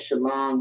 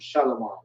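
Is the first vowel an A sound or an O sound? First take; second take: A sound; O sound. First: The first vowel is an open A sound. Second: The first vowel is a rounded O sound. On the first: The speaker calls it right. "instead of saying shalom" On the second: The speaker calls it wrong. "Shalom with an O instead of an A"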